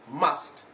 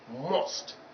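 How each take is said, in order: First: The vowel is the target vowel sound. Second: The vowel is a different vowel sound. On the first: The speaker calls it right. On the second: The speaker calls it wrong.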